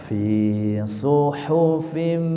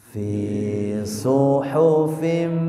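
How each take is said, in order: Both takes have the same delivery.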